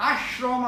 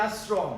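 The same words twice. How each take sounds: First: আশ্রম with a hushing "sh": ash-rom; wrong sh-sound. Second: আশ্রম with a thin "s": asrom; correct s-sound. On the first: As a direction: say আশ্রম as "ashrom", the way not used. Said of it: "আশ্রম আমরা বলি না". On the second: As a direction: say আশ্রম as "as-rom", no "sh". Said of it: "আমরা এটাকে বলি". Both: Shown as a demonstration.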